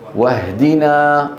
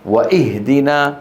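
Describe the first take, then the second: First: No glottal stop; 'wa' links straight into 'h'. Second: A glottal stop is pronounced before 'ihdina'. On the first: The speaker calls it right. "هنا ماذا نقول؟" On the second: The speaker calls it wrong. "ولا نقول واهدنا"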